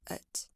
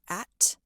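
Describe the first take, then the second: First: The word has a weak schwa vowel. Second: The word has a full, clear vowel. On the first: "they would say at" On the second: "Instead of at"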